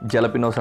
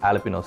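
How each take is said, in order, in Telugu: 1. ఈ పదం J శబ్దంతో మొదలవుతుంది. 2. ఈ పదం H శబ్దంతో మొదలవుతుంది. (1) "జలపినోస్ అని రాస్తారు" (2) "జేని హెచ్ కింద ప్రొనౌన్స్ చేస్తారు, హా సౌండ్ తోటి"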